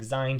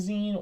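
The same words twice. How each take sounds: First: The vowel sounds like 'eye', a long I. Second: The vowel sounds like 'ee', as in magazine. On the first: "just with the long I" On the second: "Like magazine zine"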